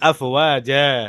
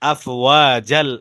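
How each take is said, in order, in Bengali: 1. শব্দটি একটি খোলা স্বরধ্বনি দিয়ে শেষ হয়। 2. শব্দটি L ধ্বনির সাথে যুক্ত হয়ে শেষ হয়। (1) "আলাদাভাবে এখানে আপনি ওয়াকফ করবেন" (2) "যদি আপনি মিলায় পড়েন তখন তার টান হবে না"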